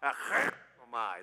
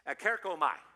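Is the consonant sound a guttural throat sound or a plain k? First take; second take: guttural; plain k. First: The consonant is a rough guttural throat sound. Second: The consonant is a plain k sound. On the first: "you really have to get that guttural throat sound in there" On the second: "usually when our English we do it as K"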